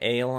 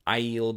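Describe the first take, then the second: First: The name sounds like the word 'ale'. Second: The name does not sound like 'ale'. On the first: The speaker calls it wrong. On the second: The speaker calls it right.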